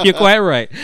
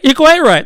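First: Mock-posh line broken by laughter; half-laughing posh echo. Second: Higher, prim mock-posh reply; playfully prim and posh. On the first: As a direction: say it while cracking up. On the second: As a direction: put on a polite proper voice. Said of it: "Excuse me, [name]".

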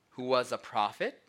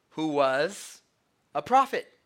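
First: Said in the usual way. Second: Mock condescension. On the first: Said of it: "notice Cleopas' words". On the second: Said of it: "So they said to him".

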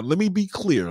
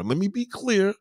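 First: Raised voice. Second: High insistent. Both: Shown as a demonstration.

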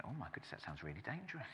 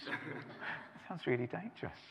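First: Inner thought. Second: Softer, slower repeat after a laugh; quiet inner thought. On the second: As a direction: murmur it to yourself, drawn out. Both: Retold or imitated. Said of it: "I was thinking".

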